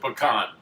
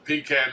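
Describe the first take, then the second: First: The first syllable does not sound like pee. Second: The first syllable sounds like pee. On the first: The speaker calls it right. "It's a pecan" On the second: The speaker calls it wrong. "A pecan is something you pee in when you're drunk"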